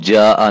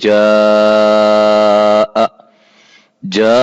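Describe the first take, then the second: First: The vowel is held only briefly. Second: The vowel is drawn out about four beats. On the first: The speaker calls it wrong. "इसको हम जा नहीं पढ़ेंगे" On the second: The speaker calls it right. "चार अलिफ के बराबर हम इसको पढ़ेंगे"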